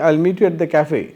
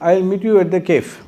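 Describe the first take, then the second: First: Cafe is pronounced the French-style way. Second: Cafe is pronounced the common Indian way. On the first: The speaker calls it right. "క్యాఫే అది" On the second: The speaker calls it wrong. "అది Indian pronunciation"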